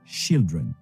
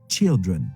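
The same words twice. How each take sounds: First: It begins with a soft 'sh' sound. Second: It begins with a t-like 'ch' sound. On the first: The speaker calls it wrong. "et pas" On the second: The speaker calls it right. "C'est comme s'il y avait un T au début"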